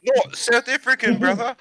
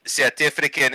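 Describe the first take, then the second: First: High-pitched mock Maori accent; not South African. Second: South African accent. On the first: Setting a listener straight, high mock Maori accent. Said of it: "South African is like this". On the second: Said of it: "and not South African". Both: Shown as a demonstration.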